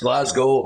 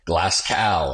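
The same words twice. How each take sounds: First: The name ends sounding like 'go'. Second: The name ends sounding like 'cow'. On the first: This is how Scottish people say it. The speaker calls it right. "there's no glass cows, mate. It's Glasgow" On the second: This is how Americans say it. The speaker calls it wrong. "in America, they call it Glasgow"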